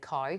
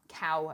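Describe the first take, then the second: First: It is said in a Northern Irish accent. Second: It is said in an American accent.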